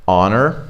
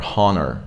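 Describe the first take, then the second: First: "honor" with the H dropped; silent H. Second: "honor" with the H wrongly pronounced; sounded H. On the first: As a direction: start "honor" straight on the vowel. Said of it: "there is a silent H". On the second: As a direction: breathe a clear H at the start of "honor". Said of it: "we don't go like". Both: Shown as a demonstration.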